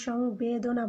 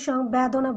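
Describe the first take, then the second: First: সংবেদনা said slowly and softly with the proper vowels; the right way: সংবেদনা, unhurried; correct pronunciation. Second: সংবেদনা with its vowels said the mistaken way; the incorrect version of সংবেদনা that we don't say; wrong pronunciation. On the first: Teacher giving students the correct form, slow and soft. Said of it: "আমরা সংবেদনা বলি". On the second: Teacher showing students the wrong way to say it. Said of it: "আমরা কিন্তু সংবেদনা বলি না". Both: Shown as a demonstration.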